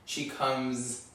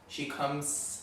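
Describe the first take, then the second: First: The final consonant is voiced, American-style. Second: The final consonant is devoiced, German-style. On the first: "instead of" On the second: "if I'm doing a German accent"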